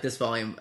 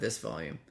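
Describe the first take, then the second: First: The voice is loud and strong. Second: The voice is soft and quiet. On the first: This is the recommended, doubled speaking level. The speaker calls it right. "then I'm going to talk about like this volume" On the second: This is the usual speaking level. The speaker calls it wrong. "if I normally talk about like this, at this volume"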